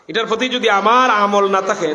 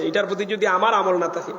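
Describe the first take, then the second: First: আমার stretched and louder; stress on আমার. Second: Said in the usual way. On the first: Real, not acted. Preacher warns about his own deeds, heavy stress on আমার. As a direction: hit আমার hard and draw it out.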